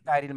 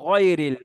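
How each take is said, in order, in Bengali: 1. প্রথম স্বরটি খোলা, স্পষ্ট 'aa' ধ্বনি। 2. প্রথম স্বরটি গাঢ়, গোলাকার 'o'-এর মতো ধ্বনি। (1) "অনেকে গায়রুল পড়ে" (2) "মোটা হরফ সেই আকার নেবে না"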